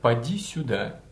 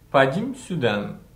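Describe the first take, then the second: First: The final vowel is allowed to ring out fully. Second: The final vowel is cut off by closing lips. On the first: The speaker calls it right. "вместо" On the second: The speaker calls it wrong. "сразу закрывают рот, не дав гласной прозвучать"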